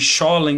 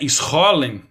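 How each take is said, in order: First: The name starts with a sh sound. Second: The name starts with a guttural sound. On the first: This is how many people commonly say it. "como muita gente fala" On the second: This follows the Hebrew pronunciation. "se a pronúncia aqui for do hebraico"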